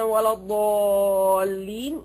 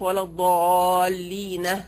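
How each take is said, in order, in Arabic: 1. الكلمة الأخيرة تنتهي بدون صوت هاء إضافي. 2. الكلمة الأخيرة تنتهي بصوت هاء إضافي. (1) "يقف عليها بدون هاء" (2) "هكذا"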